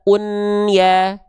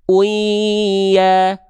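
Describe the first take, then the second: First: The n is clearly pronounced before ya. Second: The n is merged into the ya sound. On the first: The speaker calls it wrong. "nggak kita baca un ya" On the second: The speaker calls it right. "tapi bunyi dibaca uya"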